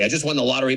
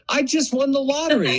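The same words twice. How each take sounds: First: It is loud, fast and flat in pitch. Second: It is loud with pitch moving up and down. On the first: The speaker sounds angry. The speaker calls it wrong. "no melody and volume and you say the words really fast" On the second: The speaker sounds strong, not angry. The speaker calls it right. "I'm going up and I'm going down"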